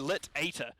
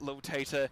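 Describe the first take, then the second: First: The name starts with lit, then ater. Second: The name starts with lil, then tater. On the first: The speaker calls it right. "Lit Ater is going to be the correct way to say it" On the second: The speaker calls it wrong. "oh, sorry"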